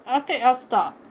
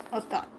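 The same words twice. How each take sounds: First: Said in the usual way. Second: "I'll stop" said much softer, almost under the breath; much quieter. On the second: Real, not acted. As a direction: drop it right down, barely aloud. Teasing the dog, then softer.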